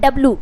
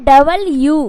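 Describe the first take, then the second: First: The name is squeezed into two syllables, dub-lu. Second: The name is said in three syllables, dub-ul-you. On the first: The speaker calls it wrong. "डब्लू नहीं होता है" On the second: The speaker calls it right. "डबल यू पढ़ना है"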